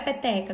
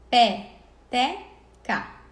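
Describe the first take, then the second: First: Said in the usual way. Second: "Pé, te, ca" as three separated beats; syllable by syllable. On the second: Shown as a demonstration. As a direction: sound out "Pé, te, ca" with a pause after each syllable. Teacher splits word into syllables. ("Pé, te, ca" sílaba por sílaba, com pausas)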